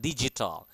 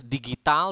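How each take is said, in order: First: Digital said with a soft G as in gem; soft J sound in digital; English-style G. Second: Digital said with a hard G as in give; hard G in digital, not English J. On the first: Teacher showing the right way, digital with soft G. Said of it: "but digital". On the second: Teacher showing the wrong way, digital with hard G. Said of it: "we don't pronounce it as digital". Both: Shown as a demonstration.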